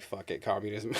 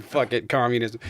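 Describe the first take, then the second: First: Muttered, softer, resigned shrug of a line; resigned mock give-up. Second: Emphatic mock give-up. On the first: Fed up with free market people, a quiet resigned shrug. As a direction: toss it off like giving up on them. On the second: Repeating the joke to his co-host, emphatic and amused. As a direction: land it as the punchline this time.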